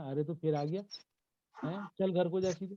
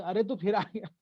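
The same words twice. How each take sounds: First: Lightly acted telling-off of a neighbour's kid; mock-scold a child who turned up uninvited; natural scolding reaction. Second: Higher, louder mock scolding; hammed-up, raised-voice "you again" reaction; exaggerated reaction. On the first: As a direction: shoo the child home, rising at the end. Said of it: "react की तो बात है". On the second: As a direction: overplay the telling-off at the child. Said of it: "ये, ये करोगे". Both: Shown as a demonstration.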